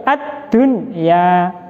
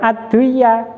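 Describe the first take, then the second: First: The n sound is pronounced clearly before y. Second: The n sound merges into the following y. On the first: The speaker calls it right. "nun sukunnya harus dibaca jelas" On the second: The speaker calls it wrong.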